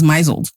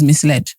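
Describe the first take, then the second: First: It is said as one word rhyming with drizzled. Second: It is said as two parts, mis-led. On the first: This is how the speaker wrongly thought it was pronounced. The speaker calls it wrong. "I thought it was misled" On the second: This is how the word is really pronounced. The speaker calls it right. "I didn't realize that misled was misled"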